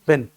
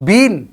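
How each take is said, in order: First: The word sounds like 'bin', with a short vowel. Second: The word sounds like 'bean', with a long vowel. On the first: The speaker calls it right. "इसको हम pronounce करेंगे बिन। जैसे डस्टबिन" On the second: The speaker calls it wrong. "बीन नहीं"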